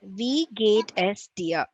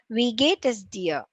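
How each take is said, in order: First: The phrase is spoken slowly. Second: The phrase is spoken at moderate speed. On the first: "read it once" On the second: "And then the second speed"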